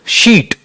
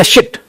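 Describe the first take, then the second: First: "शीट" with a long ee; long sound. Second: "शिट" with a short i; short sound. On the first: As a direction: lengthen the vowel in "शीट". ("शीट" में लंबी ई) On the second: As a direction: keep the vowel in "शिट" brief. ("शिट" में छोटी इ) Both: Shown as a demonstration. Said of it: "long और short का ये फर्क है।".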